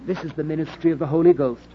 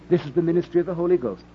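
The two takes are said the same way.

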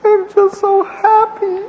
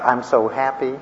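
First: High sobbing falsetto, wailed out; wife crying. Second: Lightly mimicked wife, nearly plain; wife crying. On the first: Retold or imitated. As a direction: imitate the wife sobbing happily in a high wail. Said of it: "And she goes". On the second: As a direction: quote her again almost flat. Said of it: "that's why you're crying uncontrollably".

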